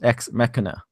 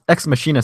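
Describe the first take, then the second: First: The 'ch' in Machina has a K sound. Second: The 'ch' in Machina has no K sound. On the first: This is the official pronunciation. "pronounced Ex Machina" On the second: This is the pronunciation people prefer. "sounds so much better"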